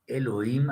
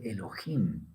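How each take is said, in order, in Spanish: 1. Empieza directamente en la vocal. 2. Empieza con un sonido fuerte y áspero en la garganta. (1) "no es Elohim a secas" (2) "Entre los askenazis se dice Elohim, como una J"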